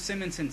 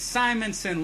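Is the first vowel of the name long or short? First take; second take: short; long. First: The first vowel is a short I sound. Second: The first vowel is a long I sound. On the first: The speaker calls it wrong. "It's not Simmons or Simonson" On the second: The speaker calls it right. "long I"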